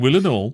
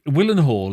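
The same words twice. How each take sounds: First: It is said in a local accent, probably without the H. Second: It is said in a posh accent, with the H. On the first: The way local people say the name. The speaker calls it right. "They go, oh, you Willenhall" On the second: An outsider's refined way of saying the name. The speaker calls it wrong. "I'm saying that in a very posh way"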